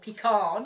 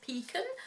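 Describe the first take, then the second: First: The word is said with an American pronunciation. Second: The word is said with a non-American pronunciation.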